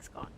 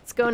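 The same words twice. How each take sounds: First: The word is said with a British pronunciation. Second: The word is said with an American pronunciation. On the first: "British pronunciation of it is like scone" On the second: "more American pronunciation"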